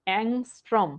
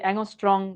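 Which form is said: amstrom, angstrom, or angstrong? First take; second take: angstrom; angstrong. First: It is said with 'ng' and ends in 'm'. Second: It is said with 'ng' and ends in 'ng'. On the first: The speaker calls it right. "এটা হচ্ছে অ্যাংস্ট্রম।" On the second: The speaker calls it wrong. "খুবই অদ্ভুত শোনায়"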